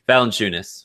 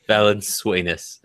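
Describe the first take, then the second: First: The name sounds like Valanciunas. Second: The name sounds like Valenzuelas. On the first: The speaker calls it right. "That's correct" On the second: The speaker calls it wrong. "I always said it wrong"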